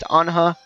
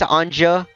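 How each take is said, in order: First: The J is not heard as a J sound. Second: The J is heard as a J sound.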